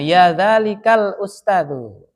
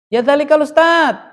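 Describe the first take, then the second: First: Slow, stretched demonstration of Arabic; measured teacher's recitation; drawn-out model phrase. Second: High, loud call to someone far off; raised voice, pitched up to carry. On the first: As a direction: spell out the phrase slowly, ending in a full USTADU. Model phrase with full ending. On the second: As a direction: hail a distant teacher. Calling a teacher who is far. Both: Shown as a demonstration.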